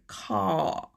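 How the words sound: The R is dropped and the vowel lengthened. This is the British way of saying it. "In British English, you don't say the R"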